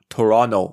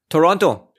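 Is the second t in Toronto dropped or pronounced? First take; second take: dropped; pronounced. First: The second t sound is left out. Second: The second t sound is clearly pronounced.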